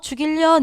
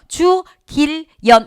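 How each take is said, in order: First: The syllables are run together in one go. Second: Each syllable is said separately and distinctly.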